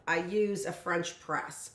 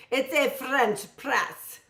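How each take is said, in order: First: Said in the usual way. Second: "French press" said slowly in a mock French accent. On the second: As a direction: drag out "French press" like a Parisian. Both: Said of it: "So that was supposed to be my French accent".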